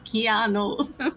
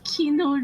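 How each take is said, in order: First: The name is said like 'Kee-ah-noo'. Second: The name is said like 'Kino'. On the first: It is the correct pronunciation. The speaker calls it right. "it's Keanu" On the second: It imitates someone else's mistaken pronunciation. The speaker calls it wrong. "She goes Keanu Reeves"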